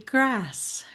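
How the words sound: It is said in an American accent. "in American English, that might be grass"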